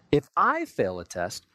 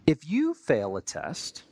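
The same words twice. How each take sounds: First: If I fail a test, stressed on "I" and said slowly. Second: If you fail a test, stressed on "you" with a rising end. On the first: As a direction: lean on "I" with a self-excusing tone. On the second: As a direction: lean on "you" to point at the other person. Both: Shown as a demonstration. Judging others vs self.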